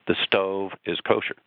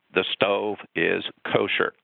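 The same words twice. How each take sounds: First: Said in the usual way. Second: Voice of God. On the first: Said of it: "he has clearly said". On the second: A narrator's reading. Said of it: "the voice of God comes from heaven and simply says".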